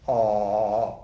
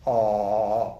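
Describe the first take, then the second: First: The sound is tight and resonates in the throat. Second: The same.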